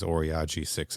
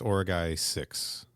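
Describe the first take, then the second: First: The name ends with a 'j' sound. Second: The name ends with a 'guy' sound. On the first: The speaker calls it wrong. "he says Oriage six every single fucking time" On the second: The speaker calls it right. "it's Origai six is is the planet"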